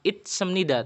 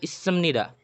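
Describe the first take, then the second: First: A t sound is heard before the s. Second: A long double s with no t sound. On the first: The speaker calls it wrong. "bukan itsemnida" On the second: The speaker calls it right. "tapi issemnida"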